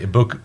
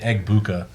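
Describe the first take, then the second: First: The name is said without any G sound. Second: The name is said with a hard G sound. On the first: The speaker calls it right. "You just say Ibuka" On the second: The speaker calls it wrong. "you don't say Egbuka"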